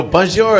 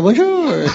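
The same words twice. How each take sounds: First: Mock French bonjour. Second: High, hammed-up French bonjour; mock French bonjour. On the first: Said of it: "you go". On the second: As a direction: greet like a tourist faking French. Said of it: "Yeah, I go".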